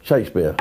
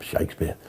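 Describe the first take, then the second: First: Said in the usual way. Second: Whispered. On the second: Shown as a demonstration. Repeats name, then whispers it.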